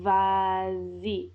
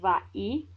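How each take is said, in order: First: A z sound links the two vowels. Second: A glottal stop separates the two vowels. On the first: The speaker calls it right. "You get a nice little liaison" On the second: The speaker calls it wrong. "that has a glottal stop and it's just really uncomfortable"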